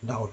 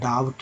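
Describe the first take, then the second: First: The B is silent, with no B sound. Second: A B sound is pronounced before the T. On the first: The speaker calls it right. "यानी कि बी silent है यहाँ" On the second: The speaker calls it wrong. "डाउट नहीं"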